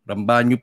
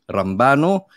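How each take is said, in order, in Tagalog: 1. Ang gitnang katinig ay palatal na 'ny' na tunog. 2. Ang gitnang katinig ay plain na 'n' na tunog. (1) "Rambanyo po pala talagang pronunciation" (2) "hindi Rambano"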